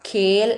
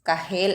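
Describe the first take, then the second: First: The k is breathy with no extra vowel. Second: A separate vowel and h sound follow the k. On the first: The speaker calls it right. "ഖേൽ എന്നാണ് വായിച്ചത്" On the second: The speaker calls it wrong. "കഹേൽ എന്നല്ല വായിച്ചത്"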